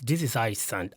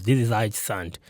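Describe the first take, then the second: First: Said in the usual way. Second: Close to the mic. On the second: Shown as a demonstration. Reviewer testing a mic up close, full close-mic sound. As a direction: lean in close to the microphone. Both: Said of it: "if I move close".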